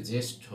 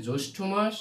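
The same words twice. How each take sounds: First: জ্যেষ্ঠ with an e-sound, "jeshtho"; elder-word pronunciation. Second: জ্যৈষ্ঠ with an o-sound, "joishtho"; month-name pronunciation. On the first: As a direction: say জ্যেষ্ঠ with a clear e in the first syllable. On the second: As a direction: say জ্যৈষ্ঠ with a rounded first vowel, like "joshtho". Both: Shown as a demonstration. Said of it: "এটা আমরা ভুল করে থাকি".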